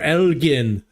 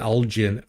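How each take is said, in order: First: It is said the British way. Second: It is said the local American way.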